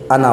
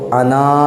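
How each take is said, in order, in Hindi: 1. आख़िरी स्वर को छोटा रखा जाता है। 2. आख़िरी स्वर को लंबा खींचा जाता है। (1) "जब सांस नहीं तोड़ेंगे तो अलिफ़ के साथ नहीं पढ़ेंगे, बल्कि अना पढ़ेंगे" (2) "जब इस पर सांस तोड़ेंगे तो इसको अना अलिफ़ के साथ पढ़ेंगे"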